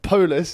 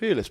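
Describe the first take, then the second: First: The name sounds like the word 'Polish'. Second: The name does not sound like 'Polish'. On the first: "I love the way he says Polish" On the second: "it's just Pulis"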